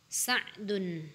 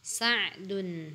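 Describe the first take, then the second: No difference in how they are said.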